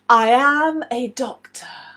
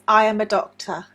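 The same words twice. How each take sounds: First: It is said proudly, with extra weight on I. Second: It is said in a plain, neutral way. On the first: The speaker is proud of being a doctor. "if you are really proud" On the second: It simply states the speaker's job. "In a general sentence"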